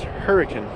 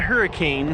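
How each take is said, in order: First: It is said differently from its spelling. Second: It is said the way it is spelled. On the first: The speaker calls it right. "It's pronounced Hurricane" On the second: The speaker calls it wrong. "Not Hurricane, although it is spelled like that"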